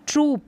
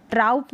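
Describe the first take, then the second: First: ट्रूप with a long steady oo. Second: ट्राउप with an ow diphthong; wrong ow sound. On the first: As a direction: hold the oo in ट्रूप. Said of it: "थोड़ा सा long है उच्चारण". (सही उच्चारण ट्रूप, लंबा ऊ) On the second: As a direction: say ट्राउप, gliding a into u. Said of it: "ट्राउप नहीं पढ़ेंगे". (गलत उच्चारण ट्राउप, आउ की आवाज़) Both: Shown as a demonstration.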